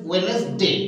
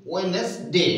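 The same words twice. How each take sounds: The two takes are said the same way.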